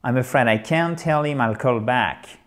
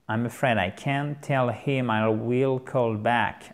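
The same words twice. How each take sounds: First: Said in the usual way. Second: Slow, word-by-word teaching delivery, "will" in full; slow model sentence. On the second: Shown as a demonstration. Teacher repeats the phone reply for learners, slowly. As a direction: spell out each word slowly, "I will" uncontracted.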